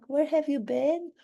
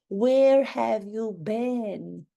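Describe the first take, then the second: First: Said in the usual way. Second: Drawn-out demand. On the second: Acted. Same question, drawn out louder.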